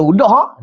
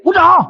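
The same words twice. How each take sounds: First: Said in the usual way. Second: High, loud imitated yelp; short mock scream. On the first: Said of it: "Dia kata". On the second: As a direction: cry out like a squeezed wife begging release. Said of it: "sampai dia menjerit".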